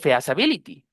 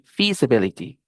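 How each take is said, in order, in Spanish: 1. La primera vocal se pronuncia como 'eh-ah'. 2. La primera vocal se pronuncia como 'ee'. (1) "no con ea" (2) "con I"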